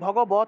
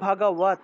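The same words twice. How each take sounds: First: The middle consonant is a full 'b' stop. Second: The middle consonant is a soft 'v' glide. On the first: This is the everyday Bengali way of saying it. The speaker calls it wrong. "আমরা এই যে বাংলায় যদি বলি ভগবৎ, যেটা ভগবৎ বলতে কোনো শব্দ নাই" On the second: This is the Sanskrit way of saying it. The speaker calls it right. "সংস্কৃত ভাষায় আছে ভগবৎ ... এই বটা হলো অন্তস্থ ব"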